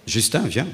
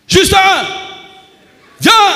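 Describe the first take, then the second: First: It is said softly and slowly. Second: It is said loudly and forcefully.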